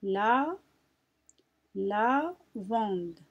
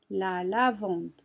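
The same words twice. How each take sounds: First: A long pause after "La", then "lavande"; syllables separated. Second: Said in the usual way. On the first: Shown as a demonstration. (« La », allongé, puis une pause avant « lavande ») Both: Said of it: "Regardez le titre".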